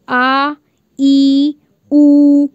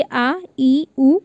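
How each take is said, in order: First: आ, ई, उ drawn out long and louder; long vowels. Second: Quick, short आ ई उ vowels. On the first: Teacher shows students long vowels, stretched and louder. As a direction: stretch आ, ई, उ to two beats each, louder. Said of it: "काफ़ी लंबा आपको खींचना पड़ रहा है". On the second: Teacher demonstrates short vowels to students, quick and short. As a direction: say आ, ई, उ short and clipped, each with one beat. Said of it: "लेकिन आपके अगर कहा जाए बड़ा आ". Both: Shown as a demonstration.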